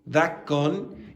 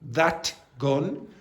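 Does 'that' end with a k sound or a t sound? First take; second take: k sound; t sound. First: The t in 'that' sounds like k. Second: The t in 'that' is kept as t. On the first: "the T becoming a K when followed by a G" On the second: "instead of"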